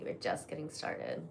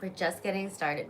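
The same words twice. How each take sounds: First: Soft teasing whisper. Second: Said in the usual way. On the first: Shown as a demonstration. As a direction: whisper it close, playful. Repeats line, second whispered.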